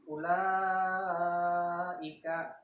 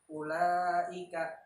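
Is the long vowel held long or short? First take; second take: long; short. First: The long vowel is held for five beats. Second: The long vowel is held under five beats. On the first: The speaker calls it right. "dibaca dengan lima harokat atau lima ketukan" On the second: The speaker calls it wrong. "panjangnya itu kurang dari lima harokat"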